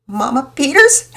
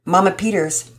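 First: Put-on higher, louder, wailing child; tearful daughter calling out; upset girl. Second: Said in the usual way. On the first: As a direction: cry out her name in distress. Distressed girl calls out. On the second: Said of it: "narration before the quote".

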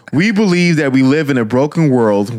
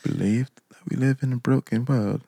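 First: Said in the usual way. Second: Soft, playful attempt at a British accent. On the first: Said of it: "But, um". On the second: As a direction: read it quietly in a mock British accent. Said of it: "Can you read it in a British accent?".

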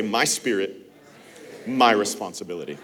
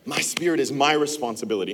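First: Slow and lower, each phrase set apart for the room to repeat; slow recitation. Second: Fast, in one breath, the whole phrase run together; quick run-through. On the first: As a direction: lead the congregation word by word. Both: Shown as a demonstration. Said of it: "Put your hand right here. Say".

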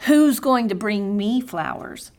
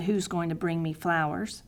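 First: Mildly complaining, a touch of a whine; half-hearted sulky lament to God; fussing prayer. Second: Softer, small pleading question; quiet pitiful plea rising at the end; pitiful prayer. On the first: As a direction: retell the fussing prayer with mild self-pity. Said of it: "my pity party prayer, my lament, my fussing to God". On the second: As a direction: ask it quietly like a sheepish child. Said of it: "my pitiful prayer". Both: Retold or imitated.

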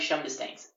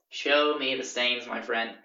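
First: Said in the usual way. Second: "Show me the stains" drawn out word by word; deliberate, slow "Show me the stains"; slow challenge. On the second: Retold or imitated. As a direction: slowly spell out the demand "Show me the stains". Slow repeat of demand in argument.

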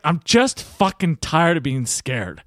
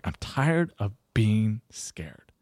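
First: Slow, emphatic retold outburst; fed-up outburst. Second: Very slow, hushed near-whisper; tearful confession. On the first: Lawyer finally admitting his fear to coach, fed-up outburst. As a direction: drag it out, exasperated and raw. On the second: Retold or imitated. Lawyer in tears admitting fear to coach, hushed confession. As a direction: imitate a man breaking down, barely voiced. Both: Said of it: "Starts crying".

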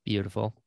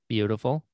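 The two takes are said the same way.

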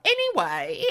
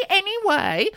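First: Said in the usual way. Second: Anyway pitched way up and loud; emphatic anyway. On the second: Acted. Host cutting off her co-host, with a loud high anyway. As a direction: cut them off with a big anyway. Second anyway, much louder, higher.

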